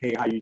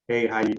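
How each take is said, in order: First: It is said softly, at low volume. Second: It is said at normal, louder volume.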